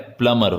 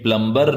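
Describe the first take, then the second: First: The b sound is silent after the m. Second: The b sound is pronounced after the m. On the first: The speaker calls it right. "प्लमर होता है। ... बी silent रहेगा।" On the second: The speaker calls it wrong. "जिसको काफी लोग गलत बोलते हैं। यह प्लम्बर नहीं होता है"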